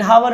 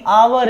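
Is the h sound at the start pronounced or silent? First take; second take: pronounced; silent. First: The word begins with an audible h sound. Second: The word begins directly with the vowel, no h. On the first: The speaker calls it wrong. "लेकिन हावर है ही नहीं" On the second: The speaker calls it right. "एच silent रहता है"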